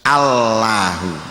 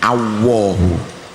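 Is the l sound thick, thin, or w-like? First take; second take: thin; w-like. First: The l is light, with the tongue on the gum. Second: The l turns into a w sound. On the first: "Aslinya Allahu. Allahu ujung lidah nempel pada gusi" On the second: "Kalau gandul itu berarti jadi wawu ... Ini salah besar"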